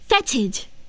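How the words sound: It is said with a British pronunciation. "U K it says fetid"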